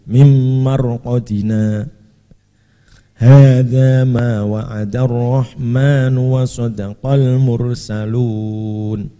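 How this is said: It stops after marqadina before continuing. "Kalau dibaca waqaf juga boleh"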